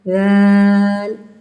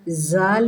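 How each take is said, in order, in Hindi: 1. इसकी शुरुआत नरम th जैसी ध्वनि से होती है। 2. इसकी शुरुआत भनभनाती z ध्वनि से होती है। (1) "इसमें आती है ज़ाल" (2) "ज़ाल नहीं करना, ज़ की आवाज़ इसमें नहीं आती"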